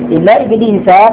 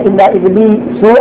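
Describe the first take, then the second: First: The name ends with an a vowel. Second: The name ends with a u vowel. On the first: The name is taken as an exception, in the accusative. "هذا عربي جيد" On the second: The name follows the preceding noun as a substitute. "على الإتباع على أنه متصل ... والرفع بدل بعض من كل"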